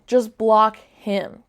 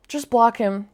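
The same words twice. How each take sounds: First: Slow, each word pressed: "Just block him"; slow insistent advice. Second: Said in the usual way. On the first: Shown as a demonstration. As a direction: spell it out slowly, "block" leaned on.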